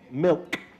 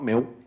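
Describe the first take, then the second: First: The final consonant is clearly pronounced. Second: The final consonant is dropped or weak. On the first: The speaker calls it right. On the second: The speaker calls it wrong.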